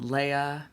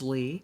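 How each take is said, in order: First: The name is two syllables, ay then uh. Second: The name is one syllable with an ee vowel. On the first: The speaker calls it wrong. "thank you, Star Wars" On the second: The speaker calls it right. "My name is Lee"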